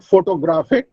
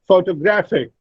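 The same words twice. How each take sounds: First: "photographic" said wrongly, each syllable full; mispronounced stress. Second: "photographic" said pho-to-GRAPH-ic; stress on third syllable. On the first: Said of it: "it is not photographic". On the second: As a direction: lean on GRA in "photographic". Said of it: "Gra, the third syllable". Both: Shown as a demonstration.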